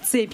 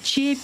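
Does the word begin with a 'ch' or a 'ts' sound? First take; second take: ts; ch. First: The word begins with a 'ts' sound. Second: The word begins with a 'ch' sound. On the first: This is the standard pronunciation. "вместо цепь" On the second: This is the local dialect pronunciation. "на месте «ц» — «ч»"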